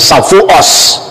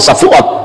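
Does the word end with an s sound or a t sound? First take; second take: s sound; t sound. First: The final consonant is pronounced as s. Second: The final consonant is pronounced as t. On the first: The speaker calls it wrong. "dia tidak bisa ngomong huruf kat T, ... tapi mengucapkan Safuos" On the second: The speaker calls it right. "lebih fasih bahasa Ibrani. Kalau ngomong Safuot ya Safuot"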